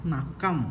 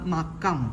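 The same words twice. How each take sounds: Both takes have the same delivery.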